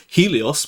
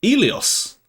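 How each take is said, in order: First: "Helios" with a sounded H at the start; H pronounced. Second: "Elios" starting straight on the vowel, no H; H dropped. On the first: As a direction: say "Helios" with an audible breathed H before the vowel. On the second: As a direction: say "Elios" slowly with the initial H left off. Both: Shown as a demonstration. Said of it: "they just don't say H sounds".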